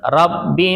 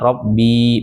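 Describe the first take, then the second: First: The final vowel is kept short. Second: The final vowel is drawn out long. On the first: The speaker calls it right. "Robbinya itu pendek, nggak ada ya-nya" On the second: The speaker calls it wrong. "Jadi bacanya bukan Robbi, bukan"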